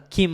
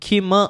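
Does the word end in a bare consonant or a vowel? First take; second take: bare consonant; vowel. First: The word ends on a bare m sound. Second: The word ends with a vowel after the m. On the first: The speaker calls it right. "क्योंकि हलंत है वो" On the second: The speaker calls it wrong. "किम कभी नहीं हो सकता"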